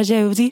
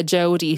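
First: Jodie in a terrible, hammed-up Scouse accent; a bad Liverpool accent on the name Jodie. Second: Said in the usual way. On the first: Shown as a demonstration. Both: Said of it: "I'm just using this hour to do terrible Liverpool accents".

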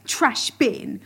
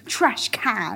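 First: Said in the usual way. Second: Trash can with an American twang; American accent. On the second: Shown as a demonstration. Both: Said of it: "British versus American words".

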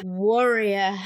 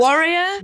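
First: "Warrior." settled with a lower falling tune; flat warrior. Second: "Warrior?" with a sharp questioning rise, louder. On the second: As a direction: ask back "Warrior?" with a rising tune. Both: Real, not acted. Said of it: "not a warrior".

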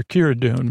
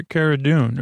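First: "Kira" said with a KEER first syllable; alternative pronunciation. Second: "Cara" said with an open first vowel; name pronunciation. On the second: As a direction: say "Cara Dune" as KAH-ra or CARE-a, not KEER-a. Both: Shown as a demonstration. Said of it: "If I've been calling her something else".

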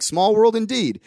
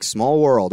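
First: "Small world indeed" lifted higher, with a knowing, jokey lilt; playful echo. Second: Said in the usual way. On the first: Retold or imitated. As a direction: toss "indeed" back with a grin. Speaker echoes Matt's words back.

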